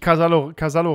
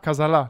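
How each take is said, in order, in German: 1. Das Wort endet auf den Vokal 'o'. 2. Das Wort endet auf den Vokal 'a'. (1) "nicht Casallo" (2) "Casalla, nicht Casallo"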